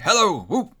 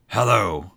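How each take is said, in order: First: High, loud joyful whoop; delighted greeting. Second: Low, grumpy Scrooge greeting; feigned growl. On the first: Scrooge hails the turkey at his door, delighted. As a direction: call out with glee. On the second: Scrooge feigns his old self to Bob, growling. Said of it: "growled Scrooge in his accustomed voice". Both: A narrator's reading.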